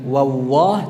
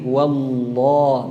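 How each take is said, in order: First: The L sound is weak and barely heard. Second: The L sound is strong and clearly heard. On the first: The speaker calls it wrong. "bukan wawah" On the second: The speaker calls it right. "lamnya yang dominan"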